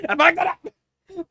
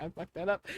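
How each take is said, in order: First: Much higher and louder, drawn out, "I fucked that up!"; frustrated shout. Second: Said in the usual way. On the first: Real, not acted. The reader annoyed at a flubbed line, shouting "I fucked that up!". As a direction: yell it at yourself after the flub.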